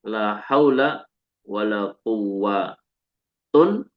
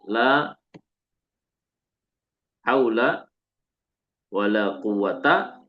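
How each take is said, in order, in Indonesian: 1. Kata terakhir berakhir dengan -un dengan tanwin. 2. Kata terakhir berakhir dengan a pendek.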